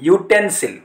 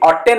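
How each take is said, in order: First: The word starts with a 'y' consonant sound. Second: The word starts with a plain vowel sound. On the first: The speaker calls it right. "ୟୁ ଉଚ୍ଚାରଣ ହେଉଛି" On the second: The speaker calls it wrong. "ଅଟେନ୍ ହଉନି"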